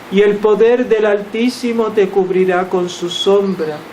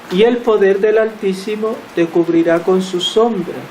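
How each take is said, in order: The two takes are said the same way.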